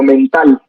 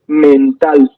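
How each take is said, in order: First: Said in the usual way. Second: "mental" dicho despacio, marcando la última sílaba; lectura lenta. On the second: Shown as a demonstration. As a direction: say "mental" slowly so the final -TAL stands out. ("mental" lento, con el acento en la última sílaba) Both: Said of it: "Cuando empezamos a leer lento".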